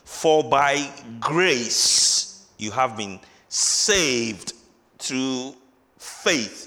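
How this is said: Certain key words are strongly emphasized.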